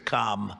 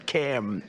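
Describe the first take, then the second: First: The syllable has the vowel of 'calm'. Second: The syllable has the vowel of 'cam'. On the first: This is how a rival's same name is said. "as opposed to Calm. Well, we don't like Calm" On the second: This is how the guest's name is said. "It's Cam, right? Cam"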